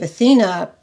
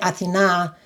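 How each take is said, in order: First: The name is pronounced the American way. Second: The name is pronounced the Greek way. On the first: Listeners know at once who is meant. "instead of Athena" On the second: Listeners pause, unsure who is meant. "If I say Athena"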